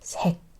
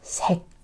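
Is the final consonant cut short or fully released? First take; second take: cut short; cut short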